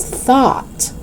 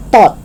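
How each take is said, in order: First: "thought" with soft voiceless TH; tongue out to start "thought"; TH sound. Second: "thought" as "tot"; hard T to start "thought". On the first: Teacher correcting learners, "thought" with clear TH. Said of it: "It's thought". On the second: Teacher showing learners the mistake, "thought" with hard T. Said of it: "it's not thought". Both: Shown as a demonstration.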